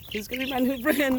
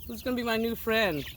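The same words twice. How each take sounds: First: Laughing. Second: Said in the usual way. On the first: Real, not acted. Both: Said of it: "repeats the line".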